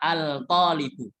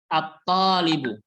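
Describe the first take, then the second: First: The 'l' is clearly pronounced before 't'. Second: The 'l' is silent, going straight into 't'. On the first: The speaker calls it wrong. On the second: The speaker calls it right. "Tapi at-talibu"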